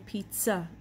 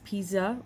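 First: The middle consonant is a ts sound. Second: The middle consonant is a plain z sound. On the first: The speaker calls it right. "we say pizza. So the tsa, that's the sound of tzadik" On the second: The speaker calls it wrong. "it's spelled with two Z's, we don't pronounce it as pizza"

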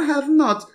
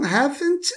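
First: It is said as two separate full words. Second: It is said as one contracted syllable. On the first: "a forma não contraída" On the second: "a forma contraída"

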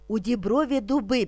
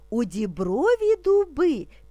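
First: It is spoken at a moderately quick pace. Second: It is spoken slowly and calmly. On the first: "Тепер трошки швидше" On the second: "Спочатку ми будемо вимовляти спокійно, не спіша"

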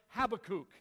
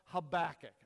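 First: The last syllable sounds like the word kook. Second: The last syllable does not sound like kook. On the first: The speaker calls it wrong. "they say Habakkuk. Okay? I don't want to be called a kook" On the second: The speaker calls it right. "I prefer the pronunciation of Habakkuk"

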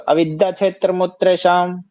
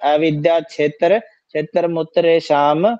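First: The words are joined in one smooth flow. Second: Each word is read separately with breaks between. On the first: The speaker calls it right. "अब इकट्ठा बोलिए इसको" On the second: The speaker calls it wrong. "आप तो ऐसे बोलिए ... ऐसा लग रहा है जैसे आप इकट्ठा एक एक वर्ड को पढ़ रहे हो"

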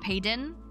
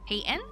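First: The middle consonant sounds like a D. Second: The middle consonant is a soft T. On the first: The speaker calls it wrong. "people put like a D sound to it" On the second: The speaker calls it right. "kind of a soft T"

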